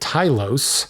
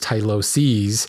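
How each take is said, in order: First: The word ends without a final -es syllable. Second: The word ends with a final -es syllable. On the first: The speaker calls it wrong. "I've been calling it Tylos, like T Y L O S E S, not pronouncing that last S" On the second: The speaker calls it right. "probably I should be referring to it as Tyloses"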